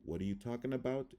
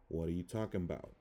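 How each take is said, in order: First: Said in the usual way. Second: "talking about" run together as "talkin' 'bout"; schwa reduction. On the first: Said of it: "I'm gonna read the word". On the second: Shown as a demonstration. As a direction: swallow the weak A of "about". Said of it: "how it would sound in English".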